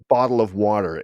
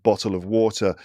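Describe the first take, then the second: First: It is said in an American accent. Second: It is said in a British accent. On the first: "A lot of D" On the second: "in England or in the U K, it would be like"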